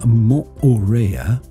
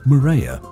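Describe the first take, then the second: First: The name is pronounced the local Tahitian way. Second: The name is pronounced the common anglicized way. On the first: The speaker calls it right. "The name Moorea" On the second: The speaker calls it wrong. "commonly called Moorea, which is the incorrect pronunciation"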